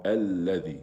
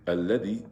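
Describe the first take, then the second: First: Alladhi with a held double lam; correct alladhi. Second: Alladhi with the lam and ending kept short; quick alladhi, nothing held; wrong short vowel. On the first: Teacher corrects the reading, alladhi with sounds held. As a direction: lean on the lam in alladhi and lengthen the ending. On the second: Teacher demonstrates the wrong reading, short alladhi. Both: Shown as a demonstration. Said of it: "Alladhi is wrong".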